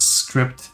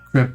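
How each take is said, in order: First: The name is said like the word script. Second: The name is said like the word crypt. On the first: The speaker calls it right. "but Script um, is the pronunciation" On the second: The speaker calls it wrong. "So it's not Crypt"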